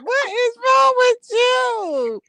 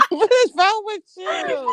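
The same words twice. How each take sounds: First: Higher, louder, very slow laughing shout. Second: Higher, slow, laughing through the words; can't stop laughing at her; laughing disbelief. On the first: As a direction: drag it out, cracking up. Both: Real, not acted. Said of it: "What are you laughing at?".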